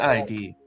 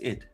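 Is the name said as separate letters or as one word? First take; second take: letters; one word. First: The name is spelled out as two letters. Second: The name is said as one short word. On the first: The speaker calls it wrong. "it's not" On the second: The speaker calls it right. "It's id"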